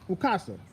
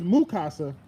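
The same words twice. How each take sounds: First: The name is said with a click sound. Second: The name is said without a click sound.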